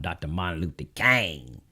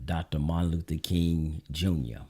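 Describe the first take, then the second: First: King said like Kang, the Southern way; Southern pronunciation. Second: Said in the usual way. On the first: Shown as a demonstration. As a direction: say King as Kang with an open vowel. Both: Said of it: "as we like to say it in the South".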